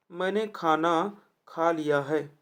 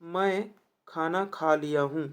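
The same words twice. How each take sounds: First: मैंने खाना खा लिया है spoken slowly with weight on मैंने; slow correct reading. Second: Slow reading. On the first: Teacher models the corrected sentence slowly for students. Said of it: "वही तो सही है". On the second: Teacher reads the question sentence slowly to the class. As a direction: read मैं खाना खा लिया हूँ slowly, word by word. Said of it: "वाक्य का शुद्ध रूप है". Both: Shown as a demonstration.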